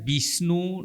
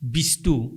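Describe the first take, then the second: First: The middle cluster is pronounced 'shn'. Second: The middle cluster is pronounced 'sht'. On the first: The speaker calls it wrong. "বিষ্ণু নকয়" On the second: The speaker calls it right.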